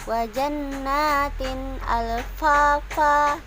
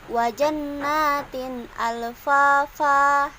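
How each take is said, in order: Both takes have the same delivery.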